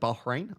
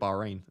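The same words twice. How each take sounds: First: The H sound in the middle is pronounced. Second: The H sound in the middle is dropped. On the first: The speaker calls it right. "you should pronounce the H" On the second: The speaker calls it wrong. "I just call it Bahrain"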